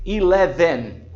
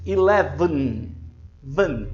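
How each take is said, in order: First: "eleven" with a full vowel in the last syllable, e-le-VEN; mispronounced ELEVEN. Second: Slow "eleven" ending in V straight onto N; vowelless VN ending. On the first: Teacher showing students what not to say, "eleven" with the last E sounded. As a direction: sound the final E clearly in "eleven". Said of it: "você não deve dizer". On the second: Teacher modelling the correct ending for students, "eleven" with V sitting on N. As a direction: say "eleven", then "Van" as just vn, no vowel. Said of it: "sem uma vogal ali no". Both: Shown as a demonstration.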